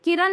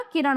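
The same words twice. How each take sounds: First: किरण ending in a plain dental "n"; higher-pitched किरण with "n" for "ण"; wrong pronunciation. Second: किरण ending in retroflex "ण"; correct pronunciation. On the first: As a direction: say किरण as "kiran". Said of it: "किरण नहीं होता". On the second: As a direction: say किरण as "kiraṇ". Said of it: "किरण होता है". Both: Shown as a demonstration.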